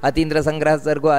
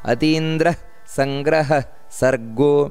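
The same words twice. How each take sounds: First: There is no 'h' sound after 'atindra'. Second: There is an 'h' sound after 'atindra'. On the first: The speaker calls it wrong. "ಆ ರೀತಿ ಅಲ್ಲ" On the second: The speaker calls it right. "ಅತೀಂದ್ರ ಅಲ್ಲಿ ಹಕಾರ ಬರಬೇಕು"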